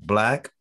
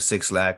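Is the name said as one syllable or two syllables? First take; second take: one syllable; two syllables. First: The name is said as one syllable. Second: The name is said as two syllables. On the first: The speaker calls it right. "or however you want to pronounce it" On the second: The speaker calls it wrong. "Some people just choose to go ahead and continue to say Six Lack"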